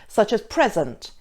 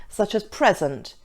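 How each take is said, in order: Both takes have the same delivery.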